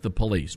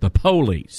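First: The stress is on the second syllable. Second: The stress is on the first syllable. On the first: The speaker calls it wrong. "Not the police" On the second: The speaker calls it right. "but the police. Emphasis on the"

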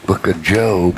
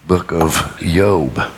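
First: The name begins with a J sound. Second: The name begins with a Y sound. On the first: The speaker calls it wrong. "there is no J in the Hebrew alphabet. So there is no book of Job" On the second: The speaker calls it right. "So Y-O-B instead of J-O-B"

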